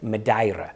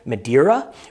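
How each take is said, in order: First: It is said with a Portuguese pronunciation, rolled R. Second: It is said with an American English pronunciation. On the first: This is how local speakers say it. The speaker calls it right. "the Portuguese way" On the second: Listeners in North America will recognize it. The speaker calls it wrong. "the American way"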